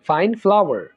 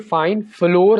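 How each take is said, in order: First: Flour is said with two syllables, like flower. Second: Flour is said with one syllable, like floor. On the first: The speaker calls it right. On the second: The speaker calls it wrong.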